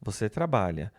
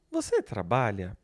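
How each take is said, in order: First: Said in the usual way. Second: "Você trabalha" lifted into a Brazilian question tune; question intonation. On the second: Shown as a demonstration. Teacher showing students how intonation makes a question, "Você trabalha" asked as a question. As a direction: ask "trabalha" with the voice rising, then dropping. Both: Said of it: "mudar a entonação".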